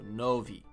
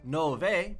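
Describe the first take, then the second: First: The final vowel sounds like 'ee'. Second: The final vowel sounds like 'eh'. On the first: The speaker calls it right. "it's like an E sound" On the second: The speaker calls it wrong. "Not nove"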